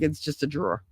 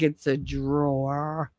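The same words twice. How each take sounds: First: "drawer" said as one syllable, "draw"; Jersey "drawer", rhyming with "draw"; Jersey pronunciation. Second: Slow, soft, drawn-out "drawer" with both syllables; mocked careful pronunciation. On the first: Shown as a demonstration. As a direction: drop the ending of "drawer", softly. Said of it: "I just skip drawer". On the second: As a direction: stretch "drawer" out fully. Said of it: "They're like".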